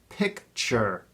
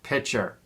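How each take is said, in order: First: A clear k sound comes before the ch. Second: No k sound comes before the ch. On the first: The speaker calls it right. "It's pronounced picture" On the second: The speaker calls it wrong. "not pitcher"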